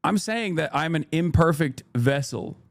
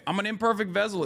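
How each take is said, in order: First: Said in the usual way. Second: Higher, with "imperfect" hit hard and falling; stressed imperfect. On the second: Shown as a demonstration. Streamer defending his apology to chat, stressing "imperfect" up high. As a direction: lean on "imperfect" to make the point. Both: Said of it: "how I'm emphasizing certain words".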